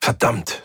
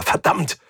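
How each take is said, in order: First: Said in the usual way. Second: Higher, more forceful "verdammt"; angry repeated curse. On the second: A narrator's reading. Captain kicks the shuttle seats, cursing angrily. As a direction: curse with mounting frustration on "verdammt". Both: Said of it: "und wieder".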